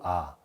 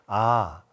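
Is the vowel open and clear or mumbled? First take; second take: mumbled; open. First: The vowel is said with a barely open mouth. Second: The vowel is said with a wide open mouth. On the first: The speaker calls it wrong. "대충 벌리고" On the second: The speaker calls it right. "입이 정말 커져야 됩니다"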